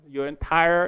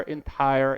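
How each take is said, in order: First: Your entire said with weight; stress on entire. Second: Said in the usual way. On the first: Shown as a demonstration. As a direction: press hard on entire. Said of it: "entire, entire budget".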